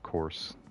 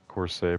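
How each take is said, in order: First: The ending is silent, like course. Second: The ending is sounded, like corsair. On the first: "I think it would probably just pr be pronounced like A F, course" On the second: "Corsair, perhaps"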